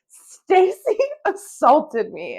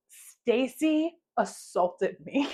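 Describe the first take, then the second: First: Loud, high, very slow proclamation; mock-outraged headline, stretched and loud; all big letters. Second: Very slow, drawn-out accusation breaking into laughter; mock-solemn writing-out that dissolves into giggles; laughing accusation. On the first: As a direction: blare each word like giant capital letters. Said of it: "in all big letters". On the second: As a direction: spell it out slowly, then crack up. Laughing at own written accusation.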